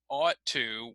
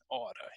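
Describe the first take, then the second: First: The two words are said fully and separately. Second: The two words are blended into one reduced word. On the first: "the expression ought to" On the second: "put them together, uh, and we kind of cut or co-articulate the sounds to get the word oughta"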